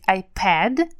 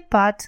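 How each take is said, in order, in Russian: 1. Гласный — передний 'a', как в cat. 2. Гласный — открытый звук 'ah'. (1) "Нужно говорить «iPad»" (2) "а не «iPad», как мы говорим по-русски"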